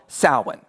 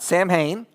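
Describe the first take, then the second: First: It sounds like 'sow-in', with no 'm' or 'h'. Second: It sounds like 'Sam Hain', with 'm' and 'h'. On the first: The speaker calls it right. "So this is called Samhain" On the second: The speaker calls it wrong. "not Sam Hain"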